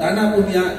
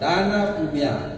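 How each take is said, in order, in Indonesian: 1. Vokal pertama diucapkan pendek. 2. Vokal pertama diucapkan panjang. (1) "ya uang" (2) "jadi pemberian adalah yang dilakukan dengan tulus ikhlas"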